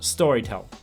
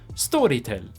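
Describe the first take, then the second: First: The name is said with English pronunciation. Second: The name is said with Swedish pronunciation.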